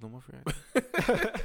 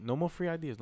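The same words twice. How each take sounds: First: Says it again through a laugh; laughing, a bit louder. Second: Said in the usual way. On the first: Real, not acted. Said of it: "repeats louder, laughing". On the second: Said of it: "repeats line for emphasis".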